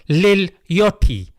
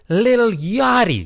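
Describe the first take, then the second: First: It is said in a British accent. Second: It is said in an American accent. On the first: The speaker calls it wrong. "if I say in the British accent, sounds a bit weird" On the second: The speaker calls it right. "Had to say in the American accent"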